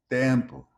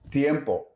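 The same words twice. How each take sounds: First: Tempo with one plain e, no glide; single vowel. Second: Tiempo with a clear i-e glide; Spanish diphthong. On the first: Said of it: "Portuguese often reduces them to a single vowel". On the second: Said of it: "Spanish loves diphthongs like U E and I". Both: Shown as a demonstration.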